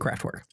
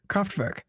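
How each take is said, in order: First: The R is hard, in an English way. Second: The R is soft, in a German way. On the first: "for the sake of you know us, we're just gonna say Kraftwerk" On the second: "the R's are kind of soft, so it's like Kra- Kraftwerk"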